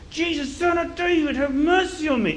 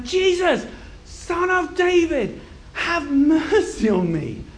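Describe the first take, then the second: First: High-pitched insistent cry; loud calling. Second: High, slow, full-voiced cry; louder shouting. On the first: Acted. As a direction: keep calling out high, without long pauses. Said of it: "And he's loud and loud". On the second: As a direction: shout each phrase out long and high over a crowd. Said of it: "So he shouts even louder".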